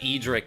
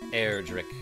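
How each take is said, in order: First: No R sound follows the first vowel. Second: An R sound follows the first vowel. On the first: "always said Edric" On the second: "it's clearly got an extra R in there"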